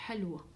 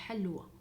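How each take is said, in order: Both takes have the same delivery.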